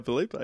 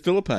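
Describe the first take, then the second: First: Felipe said fe-LEE-pay, stress on LEE; fe-LEE-pay pronunciation. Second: Felipe said FILL-a-pay, questioning; FILL-a-pay pronunciation. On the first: Podcaster fumbling Ryan's surname, saying Felipe as fe-LEE-pay. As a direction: say Felipe with a long ee in the middle. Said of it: "Can't even say Ryan Felipe". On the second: Podcaster guessing at a name, saying Felipe as FILL-a-pay. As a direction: stress the first syllable of Felipe, short i as in fill. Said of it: "Is it Felipe?". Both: Shown as a demonstration.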